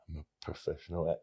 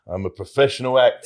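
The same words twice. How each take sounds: First: It is said with little confidence. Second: It is said with more confidence.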